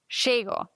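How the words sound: The first consonant is a 'sh' sound. This is how it is said in Argentina. "die Argentinier sagen Chego. Da wäre Doppel-L ein Sch"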